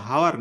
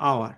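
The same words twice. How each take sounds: First: হাওয়ার with the H sounded at the start; wrong pronunciation with H. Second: আওয়ার opening straight on the vowel, no H; correct silent-H pronunciation. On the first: Teacher shows students the mistake in "hour", H voiced in হাওয়ার. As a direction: say হাওয়ার with an audible "h" first. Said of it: "এটা কিন্তু হাওয়ার না". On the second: Teacher corrects students on "hour", silent H in আওয়ার. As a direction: drop the "h", begin আওয়ার on "ow". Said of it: "এটা কিন্তু আওয়ার।". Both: Shown as a demonstration.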